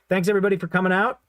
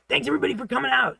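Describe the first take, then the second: First: It is said in a plain natural voice. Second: It is said in a squeezed, scratchy voice. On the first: The speaker calls it wrong. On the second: The speaker calls it right.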